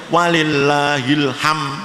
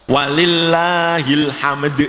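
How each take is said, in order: First: The final d sound is dropped. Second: The final d sound is clearly pronounced. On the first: The speaker calls it wrong. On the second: The speaker calls it right.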